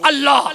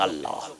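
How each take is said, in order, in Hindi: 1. यह शब्द बहुत ज़ोर से और दमदार तरीके से बोला जाता है। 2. यह शब्द धीरे से और शांति से बोला जाता है।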